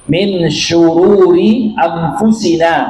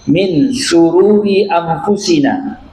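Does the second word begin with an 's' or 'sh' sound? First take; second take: sh; s. First: The word begins with an 'sh' sound. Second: The word begins with a plain 's' sound. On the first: It asks refuge from evils. The speaker calls it right. "Min syururi bisin" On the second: It asks refuge from happiness. The speaker calls it wrong.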